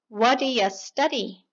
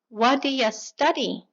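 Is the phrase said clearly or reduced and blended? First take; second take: reduced; reduced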